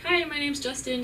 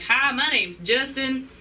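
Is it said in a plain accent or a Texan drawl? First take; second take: plain; Texan drawl. First: It is said in a plain, neutral accent. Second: It is said in a rural Texan drawl.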